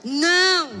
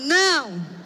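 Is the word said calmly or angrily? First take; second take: angrily; angrily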